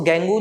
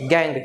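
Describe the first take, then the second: First: The word ends with an added vowel sound. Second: The word ends on a consonant sound. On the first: The speaker calls it wrong. "इसको गैंगू नहीं कहना" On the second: The speaker calls it right. "गैंग यू E silent है"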